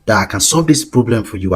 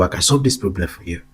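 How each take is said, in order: First: Said in the usual way. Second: Said again more softly, like a pitch; quieter, persuasive echo of the offer; softer repeat. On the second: Shown as a demonstration. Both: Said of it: "Go talk to them about that idea".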